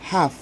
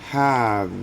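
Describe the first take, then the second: First: The word ends in a voiceless F sound. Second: The word ends in a vibrating V sound. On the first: The speaker calls it wrong. "no es nada más have" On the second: The speaker calls it right. "sino que es have... casi mordiendo el labio inferior"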